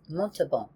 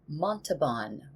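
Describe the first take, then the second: First: It is said with a French accent. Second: It is said with an American accent.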